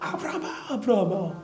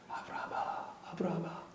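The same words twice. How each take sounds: First: The name is called out loudly like thunder. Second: The name is whispered softly.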